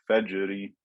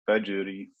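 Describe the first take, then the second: Both takes have the same delivery.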